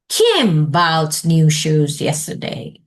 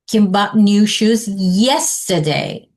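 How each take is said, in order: First: The stress falls on the word Kim. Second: The stress falls on the word yesterday. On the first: "underline Kim" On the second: "Then you online yesterday and say, how do you say that?"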